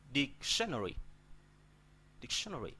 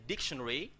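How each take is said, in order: First: Dic-SHE-nary, the middle of "dictionary" stressed; stress shifted to second syllable. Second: DICtionary, first syllable stressed. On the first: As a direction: push the weight onto TION in "dictionary". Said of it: "put the stress on, on, on T". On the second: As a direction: put the weight on DIC in "dictionary". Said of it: "I put the stress on D". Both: Shown as a demonstration.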